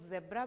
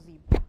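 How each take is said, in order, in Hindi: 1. पहला स्वर छोटे 'e' की आवाज़ है। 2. पहला स्वर लंबे 'ee' की आवाज़ है। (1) "कई लोग जेब्रा भी बोलते हैं" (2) "ज्यादा जो करेक्ट प्रोनाउंसिएशन है वो जीब्रा"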